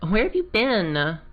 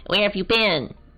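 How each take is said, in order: First: It is said in a valley girl voice. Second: It is said in a nerdy voice.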